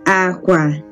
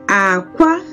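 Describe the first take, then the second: First: Both syllables are on a low pitch. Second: The pitch starts low, then goes high. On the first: It means bed. "it's low. That means it is low, low" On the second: It means egg. "it started low... and then it went off high"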